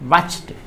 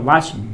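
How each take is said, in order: First: The word ends with a t sound. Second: The word ends with a d sound. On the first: The speaker calls it right. "ड नहीं ट" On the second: The speaker calls it wrong. "वाच ड नहीं"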